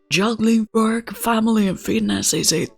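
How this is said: It is read in a put-on character voice.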